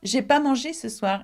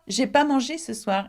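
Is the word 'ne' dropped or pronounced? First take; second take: dropped; dropped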